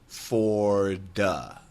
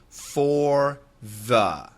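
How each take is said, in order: First: The word 'the' starts with a d sound. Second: The word 'the' starts with a th sound. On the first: The speaker calls it wrong. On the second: The speaker calls it right.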